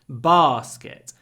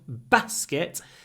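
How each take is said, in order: First: The first vowel is long, like 'alarm'. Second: The first vowel is short, like 'cat'. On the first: "In the south, ... a double sound" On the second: "In the north, ... short ah"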